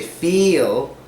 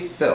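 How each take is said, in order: First: The vowel is long and tense, like 'feel'. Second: The vowel is short and lax, like 'fill'. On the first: The speaker calls it wrong. "Some people say feel" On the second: The speaker calls it right. "but it's actually Phil"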